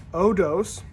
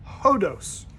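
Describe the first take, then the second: First: "odos" starting straight on the O, no H; no rough breathing. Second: "hodos" with an audible breathed H at the start; rough breathing. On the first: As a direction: say "odos" with a smooth vowel onset. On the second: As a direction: puff an H before the O in "hodos". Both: Shown as a demonstration. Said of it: "if there's a rough breathing mark".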